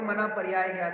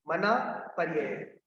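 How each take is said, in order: First: पर्याय said with a long "yaa", as many wrongly do; common mispronunciation. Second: पर्यय said with short vowels, "par-ya-ya"; correct pronunciation. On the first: Teacher quoting to students how many people say it, mispronounced पर्याय with long aa. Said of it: "बहुत सारे लोग ... बोल देते हैं". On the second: Teacher correcting a common slip for students, पर्यय with short "ya-ya". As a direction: say "पर्यय" carefully, no long aa after the first y. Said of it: "बहुत सारे लोग मना पर्याय ज्ञान बोल देते हैं". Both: Shown as a demonstration.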